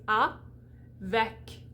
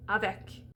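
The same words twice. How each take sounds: First: Avec split into "ah", pause, "vek"; slow separated syllables in Avec. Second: Said in the usual way. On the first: Shown as a demonstration. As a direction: break Avec in two with a clear gap. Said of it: "So here we have an A".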